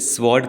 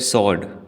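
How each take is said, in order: First: A 'w' sound follows the opening 's'. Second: No 'w' sound follows the opening 's'. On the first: The speaker calls it wrong. "Maximum लोग इसे स्वॉर्ड कहते हैं" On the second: The speaker calls it right. "इसमें डब्ल्यू नहीं बोला जाता। इसे कहते हैं सॉर्ड"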